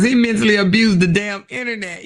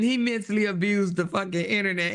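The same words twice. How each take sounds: First: Loud emphatic. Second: Said in the usual way. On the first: Real, not acted. Loud first take.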